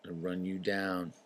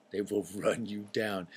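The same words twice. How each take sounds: First: Said in the usual way. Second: WILL leaned on, slow, with a laugh; stress on WILL. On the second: Shown as a demonstration. Warning parents about kids, stressing will with a laugh. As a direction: hit the word will.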